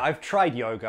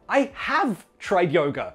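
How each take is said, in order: First: 'Have' is contracted and unstressed. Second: 'Have' is said in full and stressed. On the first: A plain statement of experience. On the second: It contradicts a claim to the contrary.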